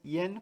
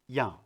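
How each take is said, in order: First: The final n is fully pronounced. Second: The vowel is nasal with no audible n. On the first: "En español es yen con N al final" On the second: "En francés, la N no se escucha, es nasal"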